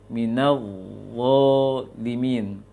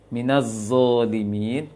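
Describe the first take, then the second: First: The consonant is a soft th-like sound at the teeth. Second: The consonant is a buzzing z sound. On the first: The speaker calls it right. "ujung lisan dengan ujung gigi seri atas" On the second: The speaker calls it wrong. "to yang bertitik itu dibaca seperti zai"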